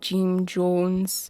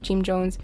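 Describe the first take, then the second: First: It is said dramatically, with lots of energy. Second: It is said flatly, with little energy. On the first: "he was like so animated about it too" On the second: "if he was just like"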